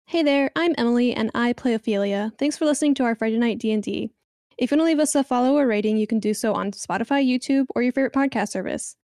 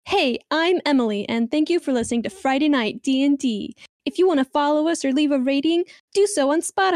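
First: Customer service voice. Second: Bright, cheerful phone-operator voice; customer service voice. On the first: Acted. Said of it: "I put on my customer service voice". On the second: Shown as a demonstration. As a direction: sound like a friendly help line. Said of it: "I can do it super customer service".

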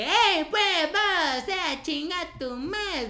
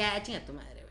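First: Put-on much higher, louder Chiapas accent, slow; sing-song Chiapaneco singsong with vos, drawn out. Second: Said in the usual way. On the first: Imitating how people from Chiapas insult, high Chiapas accent. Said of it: "el chiapaneco". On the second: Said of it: "como que".

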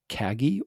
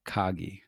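First: Kagi with a flat A as in cat; first-vowel pronunciation. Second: Kagi with an open AH in the first syllable; alternative pronunciation. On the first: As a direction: say Kagi to rhyme with "baggy". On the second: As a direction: say Kagi as KAH-gee. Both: Shown as a demonstration. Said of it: "a little bit of pronunciation".

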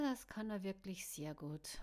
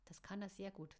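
First: A sour, grudging remark; grumbling. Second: Softer, wistful inner voice; wistful thought. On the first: Caro grumbling about the kissing skill. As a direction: grumble it under your breath, voice kept up. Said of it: "murrte Caro". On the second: Caro wistfully thinking while watching the couple. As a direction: think it softly, a little sad. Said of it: "dachte Caro und sah fast wehmütig". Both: A narrator's reading.

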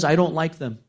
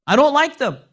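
First: Said in the usual way. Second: Master's complaint thrown up high and louder. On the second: Retold or imitated. Master refusing the dates, high and louder. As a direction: snap it back at the slave girl.

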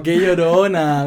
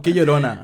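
First: Slow, drawn-out teasing; lingering mock reproach, slowly stretched; different, drawn-out tone. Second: Low, matter-of-fact jab; one take of a teasing line, kept low; possible reading tone. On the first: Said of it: "porque es distinto". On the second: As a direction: say it low as a plain verdict. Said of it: "dilo con el tono en el que lo escuchaste". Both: Shown as a demonstration.

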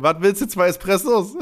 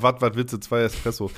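First: Loud, startled waitress, half laughing; surprised waitress. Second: Put-on blunt Ruhrpott accent waitress; a lightly voiced Ruhrpott accent. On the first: Retold or imitated. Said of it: "Und sie dreht sich um". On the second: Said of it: "auf einmal war sie aus dem Pott".

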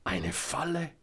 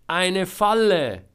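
First: Doubting echo. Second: Very loud, high, drawn-out exclamation; desperate shout. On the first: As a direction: repeat it back questioningly, without shouting. Selma echoes him as question. (ungläubig fragend, hoch) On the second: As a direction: shout it slowly across a distance. Trapped Georg shouts explanation. (laut und gedehnt ausrufen) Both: A narrator's reading.

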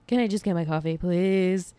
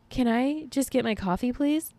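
First: Weary pleading. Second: High, pleading request; exasperated pleading. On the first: Repeats the plea lower. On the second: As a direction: beg for it, pitched up. Mock pleading for coffee. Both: Acted.

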